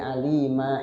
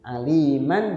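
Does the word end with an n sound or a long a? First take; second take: long a; n sound. First: The word ends with a long a. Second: The word ends with an n sound.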